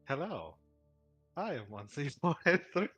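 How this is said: The pitch still varies somewhat across the phrase. The speaker calls it wrong.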